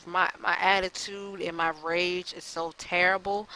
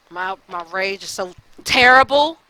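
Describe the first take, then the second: First: Said in the usual way. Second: A real burst of rage, much louder; frustrated outburst. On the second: Real, not acted. Vlogger venting his temper to viewers, loud outburst. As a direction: let the anger spill out on the repeat. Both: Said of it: "But I'm just so frustrated".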